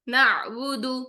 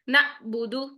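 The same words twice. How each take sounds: First: The voice flows smoothly through the middle sound. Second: The voice stops abruptly at the middle sound. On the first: The speaker calls it right. "आवाज को हम फ्लो की तरह लेकर जाएंगे" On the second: The speaker calls it wrong. "झटके से आवाज बंद होती"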